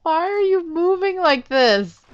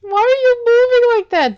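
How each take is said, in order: First: Raised, baffled asking; puzzled question. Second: Much higher, louder baffled question; loud baffled shout. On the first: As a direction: ask it half laughing, confused. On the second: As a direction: yell it, totally baffled. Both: Real, not acted. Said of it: "they're really showing off their animation".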